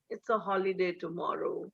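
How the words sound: The voice goes low and sounds disappointed. The planned outing is spoiled. "your voice tone goes low"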